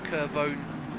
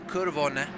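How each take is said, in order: First: It is said with an English pronunciation. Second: It is said with an Italian pronunciation.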